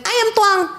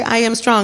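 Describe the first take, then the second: First: Put-on very high little-kid voice; cute toddler voice. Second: Said in the usual way. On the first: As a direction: squeak it out like a proud toddler. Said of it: "that cute little toddler voice". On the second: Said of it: "I was like".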